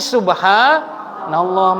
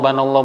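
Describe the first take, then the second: First: Every syllable is said fully and slowly. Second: The opening syllable is dropped and it is rushed. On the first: The speaker calls it right. "Yang betul pakai hati" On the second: The speaker calls it wrong. "baca ini banallah ... nggak tepat"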